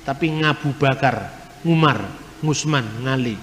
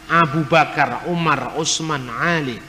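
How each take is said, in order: First: Ngabu Bakar, Ngusman, Ngali with a soft ng sound in place of ain; Javanese ng for ain. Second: Said in the usual way. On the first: Shown as a demonstration. Preacher teaching a class how Javanese speakers say Arabic names, ng replacing ain. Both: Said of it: "Orang Jawa tidak bisa ngomong huruf Ain".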